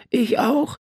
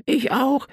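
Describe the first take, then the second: First: Put-on calling boy. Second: Put-on high child voice calling out; calling boy. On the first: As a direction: pipe up again, insistent. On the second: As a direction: chime in eagerly like a little brother. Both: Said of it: "rief sein Bruder".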